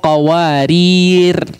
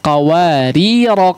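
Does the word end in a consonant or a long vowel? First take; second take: consonant; long vowel. First: The word ends on a consonant without a vowel. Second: The word ends with a lengthened final vowel. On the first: "Dia harus tetap disukunkan ya" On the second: "tidak dipanjangkan sebagaimana qawarir yang pertama ketika diwakafkan"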